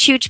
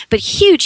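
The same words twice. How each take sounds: First: Said in the usual way. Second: Huge thrown up high and loud; "huge" hit high and loud; stress on huge. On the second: Real, not acted. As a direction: lean hard into huge, pitch leaping up. Emphasising size of police.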